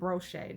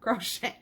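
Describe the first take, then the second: First: The word starts with a B sound. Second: The word starts with a K sound. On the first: A child's way of saying it. The speaker calls it wrong. "he puts a B in front of everything sometimes" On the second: The usual way of saying it. The speaker calls it right. "not crochet"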